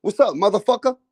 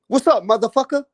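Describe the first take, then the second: First: Mock American. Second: Higher American greeting with "motherfucker" rising; even more exaggerated American impression; mock American, bigger. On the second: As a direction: ham up the American "What's up, motherfucker?". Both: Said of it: "Americans use the motherfucker word".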